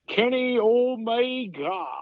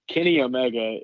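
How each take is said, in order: First: It is said with a Japanese accent. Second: It is said with a plain English accent.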